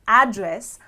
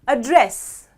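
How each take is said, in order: First: The stress is on the first syllable. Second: The stress is on the second syllable. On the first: It names the place where someone lives. "if I stress on the first part of the word" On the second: It is a verb meaning to talk to someone. "if I stress on the second half of the word"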